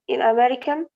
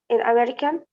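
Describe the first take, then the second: No difference in how they are said.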